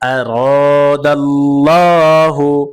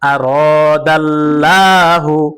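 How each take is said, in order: First: The L in Allah is heavy and full. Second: The L in Allah is light and thin. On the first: The speaker calls it right. "লাম মোটা হবে" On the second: The speaker calls it wrong. "আপনার উচ্চারণ কখনোই সহি হবে না"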